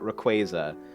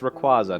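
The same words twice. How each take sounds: First: The ending sounds like the word quasar. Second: The ending does not sound like quasar. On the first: The speaker calls it wrong. "not Rayquaza. Although Rayquaza, I at least get in terms of like Quasar" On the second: The speaker calls it right. "it's Rayquaza"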